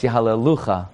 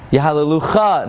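First: "Yahalelucha" with stress on LU and a falling end; correct stress. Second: "Yahalelucha" raised, with stress thrown onto the final CHA; mispronounced stress. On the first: Rabbi correcting the reading, "Yahalelucha" stressed on LU. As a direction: lean on LU in "Yahalelucha". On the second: Rabbi shows the wrong reading, "Yahalelucha" stressed on CHA. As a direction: punch the last syllable of "Yahalelucha". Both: Shown as a demonstration. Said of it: "No, it's Yahalelucha".

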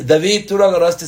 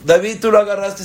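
First: Higher, louder, fast accusation; mother scolding her little boy over the phone; mother yelling. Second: Much higher and louder accusation; mother insisting the boy took it; mother yelling louder. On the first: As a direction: accuse the child sharply. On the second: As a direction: press the child harder. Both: Retold or imitated. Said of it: "empieza a gritar".

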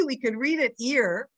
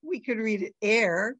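First: "ear" said with an EE vowel; read as ear. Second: "air" said with an open EH vowel; read as air. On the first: Teacher showing one reading of the word, "ear" with EE. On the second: Teacher showing the other reading of the word, "air" with EH. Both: Shown as a demonstration.

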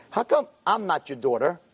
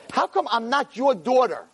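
First: Said in the usual way. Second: High, slow, insistent question; insistent plea. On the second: Retold or imitated. Girl asks rabbi why she isn't his daughter, insistent plea. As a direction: press the question, stretching it out.

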